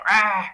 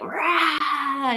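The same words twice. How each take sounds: First: Short half-hearted "rah" roar, at usual pitch; feeble lion roar. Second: Long, higher-pitched "raaah" roar; full lion roar. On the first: Man's weak first attempt on stage, half-hearted lion roar. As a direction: imitate a timid man's first try at roaring. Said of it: "had him roar like a lion". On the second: Man roaring after being coached on stage, full lion roar. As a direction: imitate the roar let out properly, drawn out. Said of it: "you can do better than that". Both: Retold or imitated.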